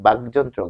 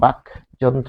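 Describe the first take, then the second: First: The word is said quickly as one run. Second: The word is said slowly with its two parts apart. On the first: This is how people say it in fast speech. "আমরা যখন দ্রুত উচ্চারণ করি তখন কিন্তু আমরা বাকযন্ত্র বলি" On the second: This shows the parts the word is built from. "কিন্তু আসলে সেটি হচ্ছে ভিতরে রয়েছে বাকযন্ত্র"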